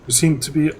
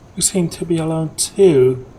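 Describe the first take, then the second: First: It is said in his normal voice. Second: It is said in a put-on girly voice.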